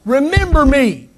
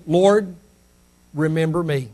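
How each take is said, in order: First: High, stretched cry of pleading. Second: Soft, low plea; simple plea. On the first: Dying thief to the Lord, raised cry. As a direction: raise the plea to a high call. Thief's plea repeated with force. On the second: Dying thief to the Lord, simple quiet plea. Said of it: "just simply said". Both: Retold or imitated.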